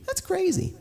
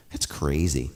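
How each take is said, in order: First: Much higher, cartoon-like squeak; squeaky high voice. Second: Said in the usual way. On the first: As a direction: echo yourself in a tiny high voice. Repeats phrase in two voices.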